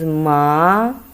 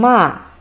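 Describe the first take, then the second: First: It is said with the second tone. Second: It is said with the fourth tone. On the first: It means hemp. "the second time is ma" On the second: It means to curse. "the fourth tongue"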